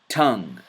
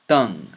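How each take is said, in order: First: It starts with a regular English t sound. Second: It starts with the tongue held behind the teeth. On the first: "first with the letter T" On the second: "then with the letter ta"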